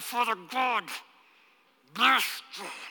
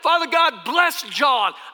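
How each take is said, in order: First: The blessing is forced out through gritted teeth. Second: The blessing is said easily and warmly. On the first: The blessing is given reluctantly. "I'd grip my teeth and I'd say" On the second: The blessing is meant sincerely. "I couldn't say it like that to start with"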